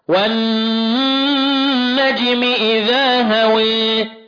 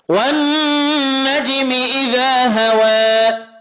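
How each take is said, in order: First: The final vowel leans fully toward e. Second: The final vowel is between a and e. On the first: "وفي إمالة" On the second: "وفي تقليل"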